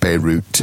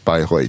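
First: It is pronounced the English way, like Beirut. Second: It is pronounced the German way. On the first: "Normally pronounced like Beirut in English" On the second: "it's Bayreuth in German"

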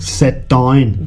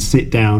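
First: It is said in a Northern Irish accent. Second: It is said in the speaker's usual accent. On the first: "but in Northern Ireland" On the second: "I'd say with my accent"

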